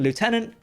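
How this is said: It is said in an American accent.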